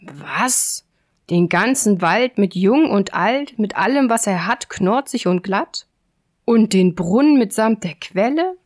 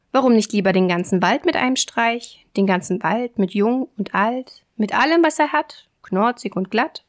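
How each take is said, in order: First: Lightly acted giant's disbelief, building in force; grumbled astonishment. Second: Lightly voiced cocky tailor, lilting; mild show-off with rising flourishes; boasting little tailor. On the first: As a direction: repeat the boast as a gullible, astonished giant. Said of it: "brummte der leichtgläubige Riese in den Bart". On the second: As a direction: pile up the brag as a question. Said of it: "fragte das Schneiderlein". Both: A narrator's reading.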